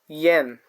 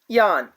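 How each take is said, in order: First: The vowel sounds like the 'e' in 'yes'. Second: The vowel sounds like the 'a' in 'father'. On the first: The speaker calls it right. "I A N is pronounced like yen" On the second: The speaker calls it wrong. "We are getting the sound like Yan. But no, this is not how it works"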